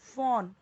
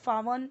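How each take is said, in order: First: It is said with a single open aw vowel. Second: It is said as two syllables, faa-wan. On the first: The speaker calls it right. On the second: The speaker calls it wrong.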